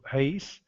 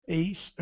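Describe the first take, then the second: First: "reis" begun with a breathy h, as "heis"; aspirated Greek onset on "reis", sounding like "heis"; rough breathing on "reis". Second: "eis" begun straight on the vowel, no h; smooth breathing on "eis". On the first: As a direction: open "reis" on an audible h puff. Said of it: "com aspiração áspera". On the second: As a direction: Greek "eis" with a clean vowel start. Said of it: "apenas com aspiração branda". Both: Shown as a demonstration.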